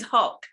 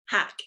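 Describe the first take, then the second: First: The surname is said with a Bengali vowel. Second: The surname is said with an English vowel.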